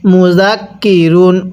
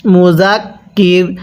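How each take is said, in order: First: মুজাক কি রুন sounded through to the final "run"; careful recitation, রুন fully pronounced; full ending. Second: মুজাক কির halted on a vowelless r; waqf stop. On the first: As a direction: join it up, voicing the -un ending of রুন. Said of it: "র দুই পেশ রুন". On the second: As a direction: stop dead on কির, dropping the -un ending. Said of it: "ওয়াকফ করলে কিভাবে পড়ব". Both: Shown as a demonstration.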